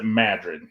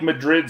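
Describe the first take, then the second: First: It is said with the Iowa town's own pronunciation. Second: It is said the usual way for the Spanish capital. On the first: This is the name of the small town in Iowa. "but they pronounce it Madrid" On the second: This is the name of the city in Spain. "It's spelled like Madrid, Spain"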